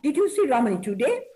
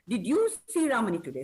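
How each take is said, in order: First: The word today is stressed. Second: The word you is stressed. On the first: The question is about today, not another day. "Stressing on today" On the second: The question is about the listener, not someone else. "So I am stressing on you"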